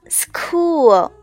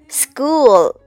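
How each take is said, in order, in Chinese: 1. s 后面的辅音听起来像一个硬的 k。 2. s 后面的辅音听起来像一个软的 g。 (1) "不要读成了school" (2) "CH 在这里要注意浊化，发为g"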